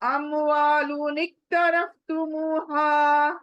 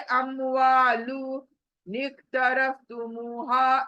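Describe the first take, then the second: First: The words run together without any break. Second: There is a break between the words. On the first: The speaker calls it right. "हमें अमवालु से हा तक एक करना है" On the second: The speaker calls it wrong. "इस तरह से नहीं पढ़ना है"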